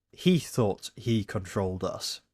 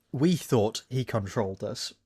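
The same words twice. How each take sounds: First: He picked out as the correct word; stress on He. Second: We set apart as the word actually said; stress on We. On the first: Reading out the line as written, stress on He. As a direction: lean on He, then let the line settle lower. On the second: Correcting a misread line for the video maker, stress on We. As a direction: lean on We, then finish evenly. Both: Shown as a demonstration. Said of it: "but the line here reads".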